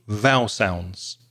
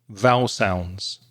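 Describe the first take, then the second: No difference in how they are said.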